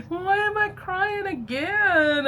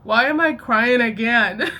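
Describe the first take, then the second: First: Much higher, slow mock-weepy whine; mock crying whine. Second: Loud, laughing disbelief; retold question broken up by laughter; laughing through it. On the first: To viewers about the show, a high, slow mock sob. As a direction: ham up the tearful question in a squeaky voice. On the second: Recalling crying over episode six, laughing loudly. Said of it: "And then later again".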